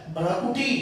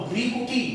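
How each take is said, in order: First: भ्रकुटी opening with bhra-; mispronunciation demo. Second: भ्रिकुटी opening with bhri-; corrected vowel. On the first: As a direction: say भ्रकुटी with an 'a' after the r. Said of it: "यहाँ पर र है". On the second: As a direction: say भ्रिकुटी with a short 'i' after the r. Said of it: "ये भ्रिकुटी हो जाएगा". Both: Shown as a demonstration.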